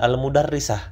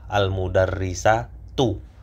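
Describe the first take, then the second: First: The word ends clipped, with a final 'h' sound. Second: The word ends with a full final 'tu' syllable. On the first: "yang lebih fasih ya itu dengan disukun" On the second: "tak marbutohnya juga dibaca"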